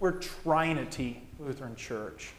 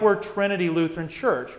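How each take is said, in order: First: Trinity is split into tri and unity. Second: Trinity is said the usual way, as one word.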